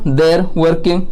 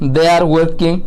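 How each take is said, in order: First: They are is contracted into one syllable. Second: They are is said as two full words.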